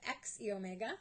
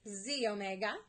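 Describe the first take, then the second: First: The name begins with spelled letters 'ex ee'. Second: The name begins with a single 'zee' sound. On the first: The speaker calls it wrong. "instead of X E omega" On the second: The speaker calls it right. "you pronounce it Z omega"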